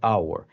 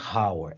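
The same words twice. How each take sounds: First: The initial h sound is silent. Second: The initial h sound is pronounced. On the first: The speaker calls it right. "Você não pronunciou o H" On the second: The speaker calls it wrong. "Não é hour"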